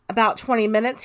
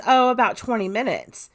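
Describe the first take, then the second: First: "About twenty minutes" echoed as a question, rising at the end; retold checking question with a rise on "minutes"; questioning repeat. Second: Said in the usual way. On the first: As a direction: query it back, lifting the end of "minutes". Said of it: "he asks". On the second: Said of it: "She says".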